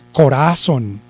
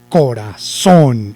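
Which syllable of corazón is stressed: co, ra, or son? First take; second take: ra; son. First: The stress is on the second syllable. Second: The stress is on the last syllable. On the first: The speaker calls it wrong. "Si lo llevara en ra" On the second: The speaker calls it right. "Y si lo llevara en son"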